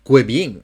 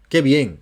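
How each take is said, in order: First: "que bien" as "kwe bien"; U wrongly sounded. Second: Spanish "Que bien" with "Que" as "ke"; silent U. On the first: Teacher mocking up the mistake for contrast, "kwe bien" with sounded U. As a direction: put a w glide into "que" before "bien". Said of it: "Tu dis pas que bien". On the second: Teacher comparing with Spanish, "Que bien" with silent U. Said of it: "on ne prononce pas non plus le U". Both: Shown as a demonstration.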